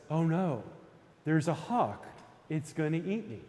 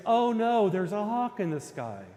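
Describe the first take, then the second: First: Lightly voiced anxious rabbit; a mild first worry, only slightly acted; worried rabbit. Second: Loud, high burst of rabbit panic, easing by the end; terrified mock scream. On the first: Storyteller voices the rabbit spotting a hawk, mildly worried. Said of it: "And the rabbit says". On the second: Storyteller voices the rabbit's third outcry, terrified mock scream. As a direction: cry out like a storybook rabbit in terror. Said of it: "terrified of the hawk, screams".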